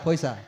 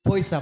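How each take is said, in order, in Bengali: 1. মাঝের ব্যঞ্জনটি s ধ্বনি। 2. মাঝের ব্যঞ্জনটি s ধ্বনি।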